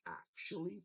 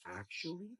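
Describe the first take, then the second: First: "actually" said high and rising, stretched; mocking "actually". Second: Mock his pronunciation of "Actually". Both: Shown as a demonstration.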